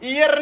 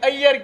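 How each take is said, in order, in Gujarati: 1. નામ 'ee' અવાજથી શરૂ થાય છે. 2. નામ 'ah' અવાજથી શરૂ થાય છે. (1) "ઈયર નહીં" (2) "અય્યર કે"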